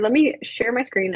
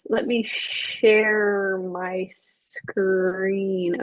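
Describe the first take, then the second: First: The phrase is said at a normal, quick pace. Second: The phrase is said slowly and drawn out.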